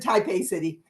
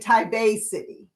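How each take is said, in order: First: It is said the American way. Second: It is said the local Taiwanese way. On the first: This is how people here say it. "but we pronounce it Taipei City" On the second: This is how people there say it. "Lucy says you say Taipei City. Okay, so that's how they pronounce it"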